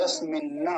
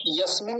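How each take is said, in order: First: यस्मिन्न with the न doubled and held; the right way: यस्मिन्न with a long double न; यस्मिन्न, both nasals sounded; correct pronunciation. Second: यस्मिन् with a single short न, no doubling; the wrong way: यस्मिन् clipped at the न; यस्मिन् said without the doubled nasal; wrong pronunciation. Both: Shown as a demonstration. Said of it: "यस्मिन् नहीं बोलेंगे".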